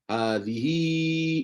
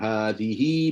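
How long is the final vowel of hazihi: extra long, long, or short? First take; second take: extra long; long. First: The final vowel is held extra long. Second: The final vowel is held long. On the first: "panjang empat atau lima harakat" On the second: "baca dia panjang"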